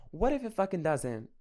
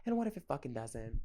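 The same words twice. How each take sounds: First: What punched higher and louder in "What if it fucking doesn't?"; louder exasperated repeat. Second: Said in the usual way. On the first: Real, not acted. Repeating herself to listeners, louder on "What". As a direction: throw the question back harder, stressing What.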